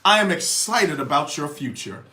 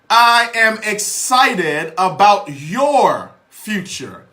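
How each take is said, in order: First: It is said at normal speed and volume. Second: It is said slowly and more loudly.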